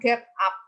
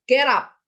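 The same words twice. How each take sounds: First: The two words are said with a break between. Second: The two words run together without a break. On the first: The speaker calls it wrong. "bacanya jangan berhenti, jangan get up, itu ketok deso" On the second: The speaker calls it right.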